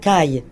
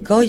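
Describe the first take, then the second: First: The vowel sounds like 'ah', the standard form. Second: The vowel sounds like 'wah', a dialect form. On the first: This is the refined standard form. The speaker calls it right. "chez nous, c'est des cailles" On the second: This is the local patois form. The speaker calls it wrong. "c'est pas des coilles"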